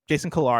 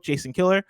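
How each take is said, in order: First: The surname ends in an 'ar' sound. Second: The surname ends in an 'er' sound. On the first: The speaker calls it right. "Jason Killar, I'm going to say" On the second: The speaker calls it wrong. "Killer sounds pretty aggressive"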